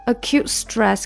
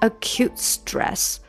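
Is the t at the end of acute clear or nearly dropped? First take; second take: nearly dropped; clear. First: Said faster and linked, with the t nearly dropped. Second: Said slowly and apart, with a clear t. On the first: "你要稍微连一下稍微快一下它就变成了" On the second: "你要分开很慢的读它就变成"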